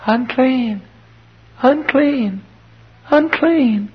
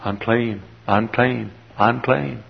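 First: Put-on very high, drawn-out child's call; thin out into a high girl's warning cry; little girl's cry. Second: Put-on soft, subdued child's call; little boy's cry. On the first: Leper's little daughter warns others, crying out high. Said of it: "that little girl cries". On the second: Leper's little son warns others, crying out softly. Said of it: "The little boy cries".

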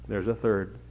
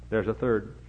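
No difference in how they are said.

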